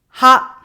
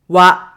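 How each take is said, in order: First: The syllable begins with an h sound. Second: The syllable begins with a w sound. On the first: This is the usual reading of the character. "This is usually we pronounce as ha" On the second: This is the reading when it is a particle. "when it used as a particle, we pronounce it wa"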